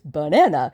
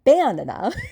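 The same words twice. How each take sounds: First: The stress is on the second syllable. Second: The stress is on the first syllable. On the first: The speaker calls it right. "the second syllable is stressed" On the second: The speaker calls it wrong. "It's not banana"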